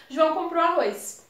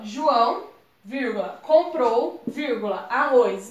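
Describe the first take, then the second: First: Said in the usual way. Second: Each word split off by pauses; choppy, broken up. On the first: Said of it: "A gente fala". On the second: Shown as a demonstration. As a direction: break the phrase apart word by word with stops. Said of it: "a gente não fala assim". (fala picotada, com pausas entre as palavras)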